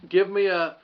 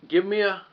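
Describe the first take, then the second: No difference in how they are said.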